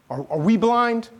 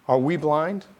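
First: High, rising, hesitant question. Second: Rising question thrown as a challenge; challenging. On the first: Pharisees asking Jesus about his judgment, questioning. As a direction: ask it high with a stumbled start. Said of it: "I don't think they're asking in, like, a happy kind of way". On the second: Pharisees answering Jesus back, challenging. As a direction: ask it as a mild challenge. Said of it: "They're asking in a way of challenge". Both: Acted.

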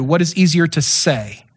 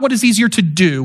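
First: "say" landed with a falling tune; stress on say. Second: "do" set up as the rejected word; stress on do. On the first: Preacher corrects the question's focus, stress on "say". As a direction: lean on "say" as the key word. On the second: Preacher explains the verse's exact question, stress on "do". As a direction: lean on "do" for contrast. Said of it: "Not what is easier to do". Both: Shown as a demonstration.

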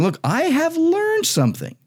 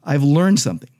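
First: Learned stressed, voice leaping high; emphatic. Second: Said in the usual way. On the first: Shown as a demonstration. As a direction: say learned as a strong, soaring claim. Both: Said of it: "That's very emphatic, very strong".

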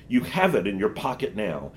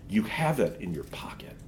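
First: Said in the usual way. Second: Hushed whisper, unvoiced. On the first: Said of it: "witch's line, later whispered". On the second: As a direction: lean in and whisper it slyly. Witch whispers the temptation.

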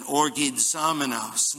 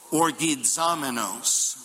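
First: Orgizamenos with the accent on the zo syllable; stress on ZO. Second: Orgizamenos said slowly, syllable by syllable: or-gi-za-me-nos; slow demo pronunciation. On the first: Pastor repeats the Greek word Orgizamenos, accenting the zo syllable. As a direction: lean on the zo in Orgizamenos. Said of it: "the accent is on the Z O". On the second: Pastor leads the congregation through the Greek word Orgizamenos, slow and careful. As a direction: sound out Orgizamenos slowly for the church to repeat. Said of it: "Try it with me". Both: Shown as a demonstration.

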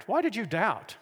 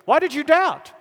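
First: Mild, imagined scolding; harsh reproach. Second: High, loud, elated disbelief; excited encouragement. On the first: Retold or imitated. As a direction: reproach him without raising the volume. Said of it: "spoke harshly to Peter". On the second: Acted. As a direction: ask it as a thrilled cheer, pitched right up. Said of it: "hard to capture the emotion".

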